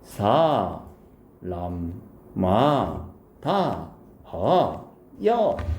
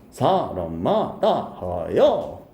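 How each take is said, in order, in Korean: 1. 음절을 하나하나 천천히 말해요. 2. 음절을 이어서 빠르게 말해요.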